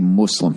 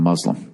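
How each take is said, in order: First: The word is pronounced in a deliberately distorted way. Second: The word is pronounced in its usual way. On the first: The speaker calls it wrong. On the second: The speaker calls it right.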